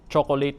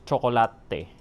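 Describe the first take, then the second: First: The word begins with a 'ch' sound. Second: The word begins with a 'ts' sound. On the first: The original English pronunciation. "C H" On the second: The Filipino-adapted pronunciation. "becomes T S"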